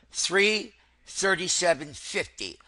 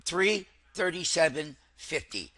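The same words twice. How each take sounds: The two takes are said the same way.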